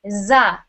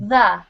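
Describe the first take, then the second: First: The word begins with a buzzing z sound. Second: The word begins with a soft th sound. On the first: The speaker calls it wrong. "you were saying za, like a Z" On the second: The speaker calls it right. "We want to hear"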